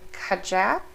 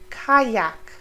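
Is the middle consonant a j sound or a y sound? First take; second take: j; y. First: The middle consonant is not a y sound. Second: The middle consonant sounds like a y. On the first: The speaker calls it wrong. "it's not kajak" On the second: The speaker calls it right. "It sounds like a Y"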